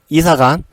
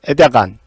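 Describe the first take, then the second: First: The word is said with clear, normal sounds. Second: The word is said with a lisp, like a short tongue.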